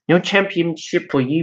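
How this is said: It is said in a put-on Australian accent. "That's I guess that's Australian"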